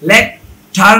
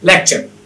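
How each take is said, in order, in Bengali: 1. মাঝের ব্যঞ্জনবর্ণটি একটি শক্ত t ধ্বনি। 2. মাঝের ব্যঞ্জনবর্ণটি একটি ch ধ্বনি। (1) "না হয়ে" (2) "হবে"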